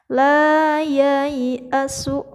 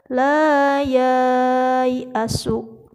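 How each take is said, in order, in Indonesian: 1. Vokal setelah y pertama itu pendek. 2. Vokal setelah y pertama itu panjang. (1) "tidak boleh dibaca panjang" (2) "tidak boleh kita membaca"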